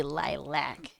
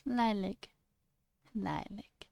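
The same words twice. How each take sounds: First: Lilac with a full "lack" ending; rejected pronunciation. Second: Lilac softly as "lie-lick"; soft, short "lik" ending on Lilac; own preferred pronunciation. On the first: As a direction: say lilac as "lie-lack", with distaste. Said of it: "I refuse to say lilac". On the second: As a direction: say Lilac gently, rhyming with "my lick". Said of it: "why I say it the way I do". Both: Shown as a demonstration.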